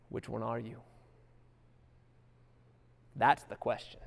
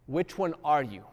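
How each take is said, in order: First: Quiet question. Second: Said in the usual way. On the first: Real, not acted. Rhetorical question repeated.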